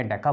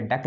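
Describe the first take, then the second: First: डेका with a clear final a sound; correct pronunciation. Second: Said in the usual way. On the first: Shown as a demonstration. Teacher corrects students' डेक to डेका. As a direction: say डेका, ending on an open a. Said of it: "डेका बोलेंगे". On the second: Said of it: "डेक नहीं बोलेंगे".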